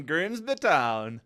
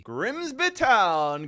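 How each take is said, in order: First: Said in the usual way. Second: Excited. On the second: Real, not acted. Drawn-out call of team.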